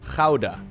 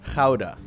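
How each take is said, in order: First: It begins with a harsh, throaty g sound. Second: The same.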